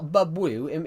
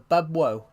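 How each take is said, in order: First: The name ends with an 'oo' vowel sound. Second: The name ends with an 'oh' vowel sound. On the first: The speaker calls it wrong. "It's not Bubwoo. If it was Bubwoo, it would be two two O's" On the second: The speaker calls it right. "I said it right"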